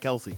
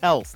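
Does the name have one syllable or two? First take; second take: two; one. First: The name is said as two syllables. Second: The name is said as one syllable. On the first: This is how most people say the name. The speaker calls it wrong. "not Kelsey" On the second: This is how the player says his own name. The speaker calls it right. "his name is pronounced Kels"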